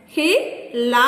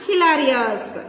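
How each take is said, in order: First: "Hilarious" in four spaced beats, Hi, la, ri, ous; long gaps inside "Hilarious"; syllable by syllable. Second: Said in the usual way. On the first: Shown as a demonstration. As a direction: count out "Hilarious" one syllable at a time. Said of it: "Four syllables". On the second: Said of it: "Divide each word".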